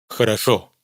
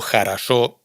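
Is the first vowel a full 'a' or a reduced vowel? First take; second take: reduced; full a. First: The first vowel is a short neutral sound. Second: Every unstressed vowel is a full 'a' sound. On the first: "En la primera sílaba pronunciamos J con vocal neutra" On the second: "quedaros con a para todos los casos"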